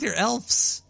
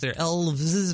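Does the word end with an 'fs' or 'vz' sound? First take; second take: fs; vz. First: The word ends with an 'fs' sound. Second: The word ends with a 'vz' sound. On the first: "but I think they're elves" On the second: "When there's more than one, there's V-E-S"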